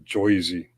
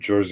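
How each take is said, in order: First: The first vowel sounds like 'oy'. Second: The first vowel sounds like a plain 'er'. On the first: This is how locals say it. "they say Joyzy" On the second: This is how outsiders say it. "And in New Jersey"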